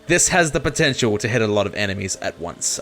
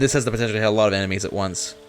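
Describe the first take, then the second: First: The sentence is spoken slowly and clearly. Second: The sentence is spoken very fast and mumbled. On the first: The speaker calls it right. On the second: The speaker calls it wrong.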